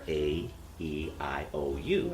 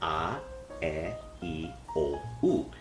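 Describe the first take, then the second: First: The vowel letters are named as in English. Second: The vowel letters are named as in Spanish. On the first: "in English, ours are" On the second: "In Spanish is"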